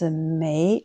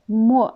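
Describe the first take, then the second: First: The syllable is said with a rising tone. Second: The syllable is said without a rising tone. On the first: It is a word of negation. "deuxième don" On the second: It means to confiscate or submerge. "la deuxième prononciation"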